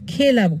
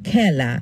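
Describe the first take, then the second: First: The first vowel is a plain e sound. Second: The first vowel is an open ae sound. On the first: This is how the spelling suggests it is read. "খেলা বলার কথা" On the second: This is how people actually say it. "আমরা কি বলি? খেলা"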